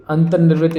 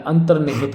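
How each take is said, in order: First: अंतर्निर्वृत ending "nirvrit"; mispronounced word. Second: Said in the usual way. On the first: Shown as a demonstration. Teacher showing the wrong form, अंतर्निर्वृत with "nirvrit". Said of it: "इस तरह से नहीं होता है". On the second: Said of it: "अंतर्निहित होता है".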